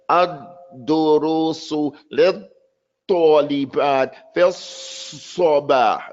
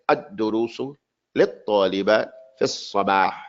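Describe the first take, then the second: First: The phrase is pronounced with exaggerated, overdone articulation. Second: The phrase is pronounced clearly without overdoing it. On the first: The speaker calls it wrong. "You overdid it" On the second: The speaker calls it right. "Make it clear"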